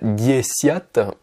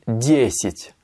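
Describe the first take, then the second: First: The second vowel is pronounced as a full 'ya'. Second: The second vowel is reduced to a short 'ee'. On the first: The speaker calls it wrong. "Je dis pas diesiat" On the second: The speaker calls it right. "mais je dis diesit"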